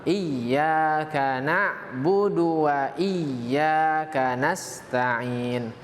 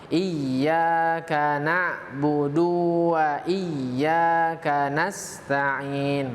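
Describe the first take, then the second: First: The syllable 'du' is kept short. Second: The syllable 'du' is drawn out long. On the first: The speaker calls it right. "Yang benar" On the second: The speaker calls it wrong. "memanjangkan e, bacaan du itu menjadi bacaan mat ... bacaan yang salah"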